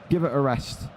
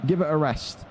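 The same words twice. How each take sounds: The two takes are said the same way.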